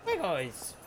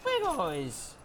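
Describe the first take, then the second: First: Higher cheery call to the dogs; higher cheerful hello; excited greeting. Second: Much higher squeaky hello to the dogs; very high squeaky call; squeaky greeting. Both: Real, not acted.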